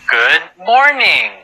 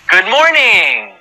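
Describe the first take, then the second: First: It is said fast. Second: It is said very fast.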